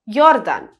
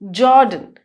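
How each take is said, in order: First: The name is pronounced the German way. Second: The name is pronounced the English way. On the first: "But in German, it would be pronounced as Jordan" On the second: "So in English, J O R D A N would be pronounced as Jordan"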